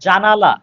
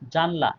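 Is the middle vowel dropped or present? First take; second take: present; dropped. First: The word is said with its middle vowel. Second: The word is said without its middle vowel. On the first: "জানালা থেকে হয়ে গেল জানলা" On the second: "এখানে আকারটা লোপ পেয়েছে"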